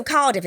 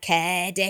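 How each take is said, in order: First: Said in the usual way. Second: "Cardiff" said the broad Cardiff way; put-on Cardiff pronunciation; Cardiff accent. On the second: Shown as a demonstration. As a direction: demonstrate a hard Cardiff accent. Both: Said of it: "Cardiff is like Cardiff".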